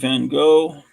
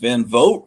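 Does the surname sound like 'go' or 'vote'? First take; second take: go; vote. First: The surname sounds like 'go', with no final t. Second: The surname sounds like 'vote', ending in t. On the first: The speaker calls it wrong. "I always pronounce it Van Gogh" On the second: The speaker calls it right. "It's Van Vogt"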